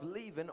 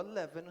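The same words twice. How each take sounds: First: "leaven" said LEE-ven; "leaven" starting like leave; long-E pronunciation. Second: "leaven" said LEV-en; "leaven" rhyming with seven; short-E pronunciation. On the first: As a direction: give "leaven" a long ee vowel. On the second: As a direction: give "leaven" a short eh vowel. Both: Shown as a demonstration. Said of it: "however you pronounce it".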